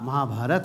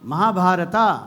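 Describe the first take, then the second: First: The word ends on a consonant, no final vowel. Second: The word ends with an added final vowel. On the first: The speaker calls it right. "महाभारत है" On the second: The speaker calls it wrong. "ये पता नहीं अंग्रेज last में ए कहां से लगा गए"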